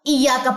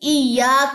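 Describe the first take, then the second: First: The vowel after the double y is short. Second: The vowel after the double y is long. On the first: The speaker calls it wrong. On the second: The speaker calls it right.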